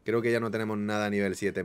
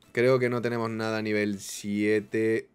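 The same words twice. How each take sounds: First: Said in the usual way. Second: Slow delivery with SIETE stretched out; slow, drawn out. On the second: Real, not acted. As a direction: draw it out, lingering on "siete". La repite alargando las palabras. (lento, alargando "siete")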